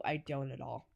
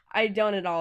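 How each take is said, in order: First: Soft, laughing admission; giggling as she admits it. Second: Said in the usual way. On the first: Real, not acted. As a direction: say it through a quiet laugh.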